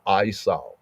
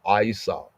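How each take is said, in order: First: The name has a Hebrew-style pronunciation. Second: The same.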